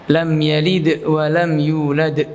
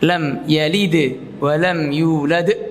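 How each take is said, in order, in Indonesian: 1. Kedua pantulan d berakhir dengan hamzah. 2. Hanya pantulan d terakhir yang ada hamzahnya. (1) "yaitu dibaca pantulannya ada hamzahnya" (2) "qalqalah sughra enggak ada hamzahnya yang pertama, sedangkan qalqalah kubra ada hamzahnya"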